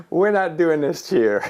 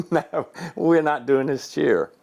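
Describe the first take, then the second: First: Higher and laughing through it, retold; half-laughing, mock-firm no to the cheer; laughing refusal. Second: Slow, deliberate retold refusal; slow firm repeat. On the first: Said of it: "I said". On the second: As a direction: spell out the no, word by word. Repeats his refusal slowly.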